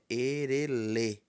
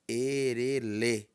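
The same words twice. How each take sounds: The two takes are said the same way.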